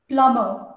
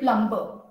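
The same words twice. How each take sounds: First: The b sound is silent. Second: The b sound is pronounced. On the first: The speaker calls it right. "So the B is silent" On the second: The speaker calls it wrong. "But I hear people say plumber"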